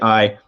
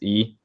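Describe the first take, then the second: First: It is said with an 'eye' vowel. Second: It is said with an 'ee' vowel. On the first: This is a preferred reading because it sounds cooler. "but I say it I because it sounds cooler" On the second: This is the technically correct Latin reading. "He says E because he's uh, he's actually technically right"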